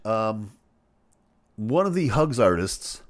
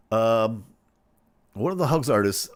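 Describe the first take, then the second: No difference in how they are said.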